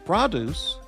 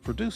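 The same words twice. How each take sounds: First: The stress is on the first syllable. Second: The stress is on the second syllable. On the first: It means fruit and vegetables. "is a noun, like fruit and vegetables" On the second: It means to make something. "is a verb to produce something"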